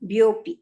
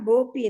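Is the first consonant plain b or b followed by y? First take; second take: b with y; plain b. First: The syllable starts with b followed by y. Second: The syllable starts with plain b, no y. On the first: The speaker calls it right. "ಹಾ ಬ್ಯೋಪಿ" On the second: The speaker calls it wrong. "ಭ್ಯೋ ಹೇಳಿಲ್ಲ, ಬೋಪಿ ಏನ್ರಿ"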